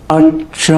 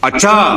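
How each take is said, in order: First: It is drawn out long and thoughtfully. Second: It is said loudly and angrily.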